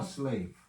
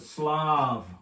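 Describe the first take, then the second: First: The vowel is a long "ay" sound. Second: The vowel is a short "ah" sound. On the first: The speaker calls it wrong. "not how, a slave" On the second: The speaker calls it right. "It's a Slav"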